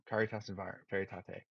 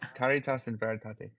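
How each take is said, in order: First: It is said in the speaker's own plain accent. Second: It is said in an imitated German accent.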